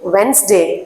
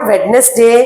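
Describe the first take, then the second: First: The d sound is left silent. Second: The d sound is clearly pronounced. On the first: The speaker calls it right. "ఈ డిని మనం pronounce చెయ్యం, వెన్స్డే అంటాం" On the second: The speaker calls it wrong. "It's not వెడ్నెస్డే"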